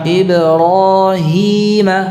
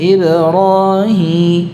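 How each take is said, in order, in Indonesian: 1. Vokal terakhir jelas, tanpa dengung nasal. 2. Vokal terakhir memiliki dengung nasal. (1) "hi tidak ada gunnahnya" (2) "Bukan Ibrahim, hi ini gunnah"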